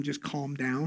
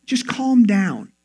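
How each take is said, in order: First: Low, softer aside; telling someone to calm down. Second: Slow, drawn-out mock soothing; telling someone to calm down. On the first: Shown as a demonstration. Telling an upset loved one, low aside. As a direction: say it low and offhand. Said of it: "to tell them". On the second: Telling an irritated loved one, slow mock soothing. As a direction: stretch out CALM patronizingly. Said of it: "telling a loved one when they're".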